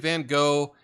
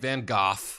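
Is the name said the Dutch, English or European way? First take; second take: English; European. First: The name is said the usual English way. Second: The name is said the common European way. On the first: "we're speaking English. We just say Van Gogh" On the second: "a lot of people in Europe, they say Van Gogh"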